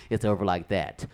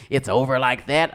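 First: "it's over like that" low and falling; falling confirmation. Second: "It's over like that" with a rising end; questioning rise. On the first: Man confirming the breakup, "that" falling with finality. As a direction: state it low, closing down on "that". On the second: Girlfriend answering a breakup, "that" rising as a question. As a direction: ask it, lifting "that" at the end. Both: Acted.

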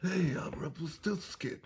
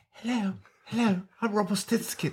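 First: Hushed, whispery character voice; soft breath-only impression; Rumpelstiltskin impression. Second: High, put-on creature voice; Rumpelstiltskin impression. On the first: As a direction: whisper it like a strange movie imp. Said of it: "then he goes back to like". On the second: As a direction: mimic a high-voiced imp introducing himself. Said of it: "and then other times he's like".

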